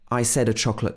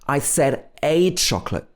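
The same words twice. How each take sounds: First: The word 'a' is unstressed, a weak 'uh'. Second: The word 'a' is stressed, a full vowel. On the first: The speaker calls it wrong. "it wouldn't be unstressed. We wouldn't say" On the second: The speaker calls it right. "the A is a key part of the sentence, so it needs to be stressed"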